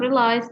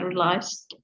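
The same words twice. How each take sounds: First: The word ends without a final d sound. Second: The word ends with an audible d sound. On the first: The speaker calls it wrong. "Not realized" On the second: The speaker calls it right. "but realized"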